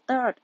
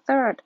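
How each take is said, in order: First: The word begins with a hard 't' sound. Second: The word begins with a soft 'th' sound. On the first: "บางคนก็ออกเสียงเป็นตอเต่านะคะ" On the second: "เป็นเสียงทอทงนะคะ"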